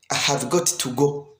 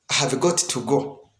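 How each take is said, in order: No difference in how they are said.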